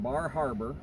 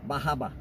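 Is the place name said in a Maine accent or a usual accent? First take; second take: usual accent; Maine accent. First: It is said in the speaker's usual accent. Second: It is said in a local Maine accent.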